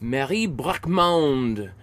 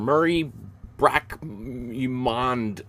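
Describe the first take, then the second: First: The name is pronounced in a French way. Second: The name is pronounced in an English way.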